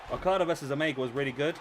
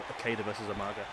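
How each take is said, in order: First: Okada said "o-KAH-da", Omega "o-MAY-ga"; Omega with a clear MAY syllable; corrected names. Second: Okada said as "KAY-da", Umaga as "oo-MAR-ga"; low, quick fumble of Okada as "KAY-da"; mispronounced names. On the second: Botched names, then corrected. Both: Real, not acted.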